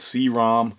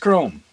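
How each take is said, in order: First: The vowel is short, rhyming with 'bomb'. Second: The vowel is long, rhyming with 'home'. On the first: The speaker calls it wrong. "it was like C ROM is what was in my mind, you know, like read-only memory" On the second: The speaker calls it right. "but it's Chrome"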